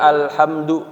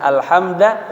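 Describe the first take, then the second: First: The word ends in a u vowel. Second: The word ends in an a vowel. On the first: "dengan dhammah pada huruf dalnya" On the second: "dengan fathah"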